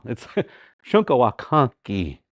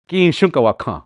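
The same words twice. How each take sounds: First: "ki" placed after "shunkawakan" and landed on; article after noun. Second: Said in the usual way. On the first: Shown as a demonstration. Teacher correcting the article's position for students. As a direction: lean on "ki" at the end. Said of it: "we're behind and not the front". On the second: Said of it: "It's not".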